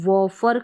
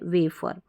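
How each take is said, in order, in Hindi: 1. पहला स्वर 'wah' जैसा सुनाई देता है। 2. पहला स्वर 'way' जैसा सुनाई देता है। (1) "इसको वॉफर करके नहीं पढ़ रहे हैं" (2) "ये स्पेलिंग आपको मेमोराइज रखनी है वेफर"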